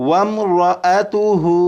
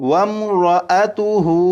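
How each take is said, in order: Both takes have the same delivery.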